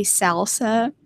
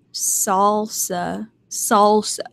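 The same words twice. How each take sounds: First: "salsa" with a flat a as in "sal", SAL-sa; her wrong way. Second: "salsa" with a broad aw, SAWL-sa; the proper way. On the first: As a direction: say "salsa" with the front a of "pal". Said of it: "I get in trouble for a lot is I say salsa". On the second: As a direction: round the vowel of "salsa" into "sawl". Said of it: "I know it's not salsa". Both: Shown as a demonstration.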